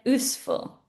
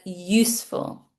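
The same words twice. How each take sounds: First: "useful" without the y, oosful; wrong form "oosful". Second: "useful" with the y, yoosful; correct "useful". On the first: Teacher repeats her mistake "useful" as oosful. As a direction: drop the y sound. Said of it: "I said useful". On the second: Teacher gives the correct "useful" with y. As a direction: start "useful" with a y. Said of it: "I should have said useful". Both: Shown as a demonstration.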